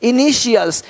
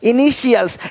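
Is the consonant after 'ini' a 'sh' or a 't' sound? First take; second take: sh; sh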